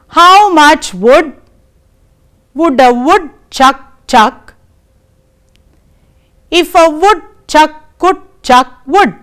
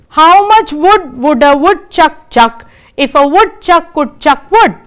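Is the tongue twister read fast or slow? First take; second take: slow; fast. First: It is read very slowly and carefully. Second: It is read at a faster pace. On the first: "I shall read it very slowly for you" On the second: "now I shall read it a little faster"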